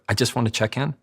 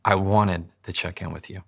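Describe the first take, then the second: First: Tentative, rising at the end; slightly unsure check-in; hesitant. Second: Direct, settled statement falling at the end; plain-spoken and assertive; leaning into it. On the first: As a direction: lightly lift the ending as if asking permission. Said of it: "It sounds like you're hesitant". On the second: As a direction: state it forward, without hesitation. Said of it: "now you're leaning into it". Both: Shown as a demonstration.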